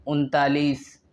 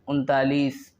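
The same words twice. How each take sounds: The two takes are said the same way.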